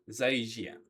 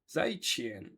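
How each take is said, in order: First: The second syllable starts with a soft 'zh' sound. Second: The second syllable starts with a 'ch'-like sound. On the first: The speaker calls it wrong. "je pense que je prononce mal" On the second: The speaker calls it right. "c'est un ch"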